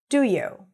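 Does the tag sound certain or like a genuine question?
certain. The tag sounds certain or even doubting. The asker already believes the answer or doubts the claim. "do you sounds as if I'm more certain or maybe even doubting"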